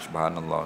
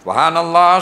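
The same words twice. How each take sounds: First: It is said softly, barely audible. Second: It is said loudly, with a raised voice.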